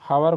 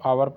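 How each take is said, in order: First: The word starts with an h sound. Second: The word starts with a vowel sound. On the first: The speaker calls it wrong. "हावर को आवर पढ़ते हैं" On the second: The speaker calls it right. "यच हमारा silent है"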